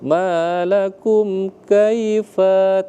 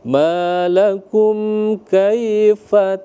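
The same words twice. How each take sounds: First: The last vowel of kaifa is drawn out long. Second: The last vowel of kaifa is short. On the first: The speaker calls it wrong. "Jangan malakum kaifa tah, enggak boleh" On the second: The speaker calls it right. "afanya jangan ditarik"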